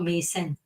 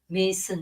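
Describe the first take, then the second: First: The word is pronounced the French way. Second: The word is pronounced the English way. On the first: The speaker calls it wrong. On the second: The speaker calls it right.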